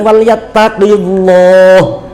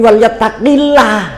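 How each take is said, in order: First: The L in Allah is thick and heavy. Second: The L in Allah is thin and light. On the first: The speaker calls it wrong. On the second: The speaker calls it right. "dibaca tipis"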